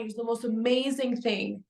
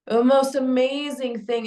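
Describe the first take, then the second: First: Said in the usual way. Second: "most" pushed up and louder; stress on most. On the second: Shown as a demonstration. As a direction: lean into "most" with awe.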